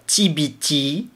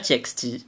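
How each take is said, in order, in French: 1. La lettre du milieu se prononce by. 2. La lettre du milieu se prononce ex. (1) "je sais qu'on doit dire T B T parce que c'est Tomorrow by Together" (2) "mais je vais dire T X T parce que c'est plus simple"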